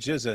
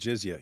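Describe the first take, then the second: First: The word ends with a plain 'za' sound. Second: The word ends with a 'zya' sound, adding a y glide. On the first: The speaker calls it wrong. "He said jizza" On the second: The speaker calls it right. "instead of jizya"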